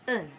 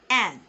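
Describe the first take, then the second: First: The vowel is reduced to a schwa. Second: The vowel is a full, open vowel. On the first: "But in the weak form" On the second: "That is how we pronounce it in the art form"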